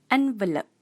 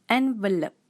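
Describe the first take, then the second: The two takes are said the same way.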